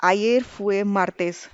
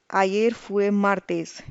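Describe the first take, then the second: First: Ayer fue martes spoken slowly, each word separate; slow clear model answer. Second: Ayer fue martes slowly, each word separate; slow clear model answer. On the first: Teacher modelling the Spanish answer, slow and clear. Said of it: "our answer would be". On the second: Teacher repeating the model answer, slow and clear. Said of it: "What day was yesterday?". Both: Shown as a demonstration. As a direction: spell it out slowly for learners.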